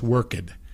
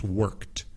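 First: The word is said with two syllables. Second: The word is said with one syllable. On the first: The speaker calls it wrong. "No es worked" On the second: The speaker calls it right. "it sounds like one syllable"

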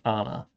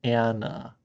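First: The name is said as in other languages. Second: The name is said in the Americanized way. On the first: The speaker calls it right. "in every other language, the name is Anna" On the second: The speaker calls it wrong. "I can't frame to pronounce it the Americanized way"

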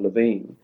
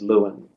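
First: The name has its original non-English pronunciation. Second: The name has an anglicized English pronunciation. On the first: This is how the name is properly said. The speaker calls it right. "the correct way of pronouncing the name is Levine" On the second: This is the form familiar to English speakers. The speaker calls it wrong. "what they know is Lewin"

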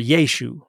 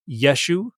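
First: The first vowel is long. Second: The first vowel is short. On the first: "or a long E at the beginning" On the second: "with a short E"

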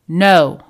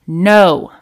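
Both takes have the same delivery.

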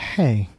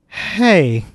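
First: It is said quietly. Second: It is said loudly.

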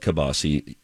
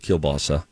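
First: It is said with an East Coast pronunciation. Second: It is said with a Minnesota pronunciation. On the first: "Back east, we call it kielbasa" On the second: "Here in Minnesota, everybody calls it kielbasa"

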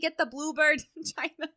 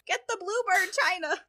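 First: It is said in a northern accent. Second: It is said without a northern accent. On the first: The speaker calls it right. "She's got the northern accent" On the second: The speaker calls it wrong. "No, my grandma doesn't sound like that"

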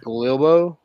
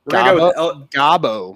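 First: The name is said with an L sound. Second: The name is said without an L sound.

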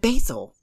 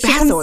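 First: Basil is pronounced the American way. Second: Basil is pronounced the British way. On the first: The speaker calls it right. "that's not how Americans say this" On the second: The speaker calls it wrong. "they also say basil instead of"

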